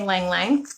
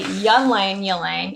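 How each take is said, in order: First: The word starts without a y sound. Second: The word starts with a y sound.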